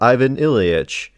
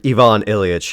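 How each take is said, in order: First: The name is said with English-style pronunciation. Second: The name is said with Russian-style pronunciation.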